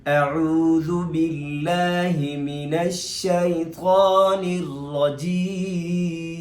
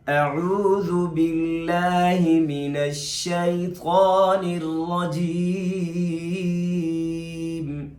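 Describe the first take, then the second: No difference in how they are said.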